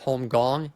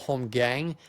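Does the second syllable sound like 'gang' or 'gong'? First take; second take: gong; gang. First: The second syllable rhymes with 'long'. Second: The second syllable rhymes with 'bang'. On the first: The speaker calls it right. "It's home gong" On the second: The speaker calls it wrong. "A lot of people call it home gang. A lot of the times it's mispronounced"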